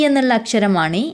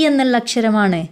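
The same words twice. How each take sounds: The two takes are said the same way.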